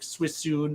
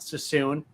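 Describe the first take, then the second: First: The first syllable is said as 'swi'. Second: The first syllable is said as 'sa'. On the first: This follows the spelling of the name. "It's probably like Swissoon or something" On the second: This is how people usually say it. "It's probably not Sassoon"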